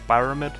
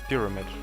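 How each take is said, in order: First: The first syllable sounds like 'pyre', with 'eye'. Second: The first syllable has a short 'ih' vowel. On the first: "I always pronounce it like like that, you know, like pyre" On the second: "the proper pronunciation is actually pyramid"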